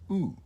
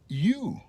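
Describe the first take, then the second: First: The letter is said the Spanish way. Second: The letter is said the English way. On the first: "In Spanish, no. You pronounce it just U" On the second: "In English, the letter U can be pronounced U"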